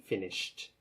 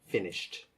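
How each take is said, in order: No difference in how they are said.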